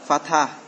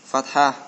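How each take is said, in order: Both takes have the same delivery.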